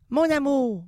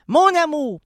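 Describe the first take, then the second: First: Said in the usual way. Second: Mon amour swelling much louder; a bigger, bolder "Mon amour"; louder tender try. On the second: Shown as a demonstration. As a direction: say "Mon amour" with a full loud sweep. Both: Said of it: "c'est mieux".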